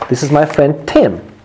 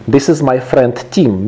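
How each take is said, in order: First: The name has a short 'i' vowel. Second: The name has a long 'ee' vowel, like team. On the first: It is the person's name. The speaker calls it right. "His name is Tim" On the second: It sounds like the word for a group. The speaker calls it wrong. "That's wrong"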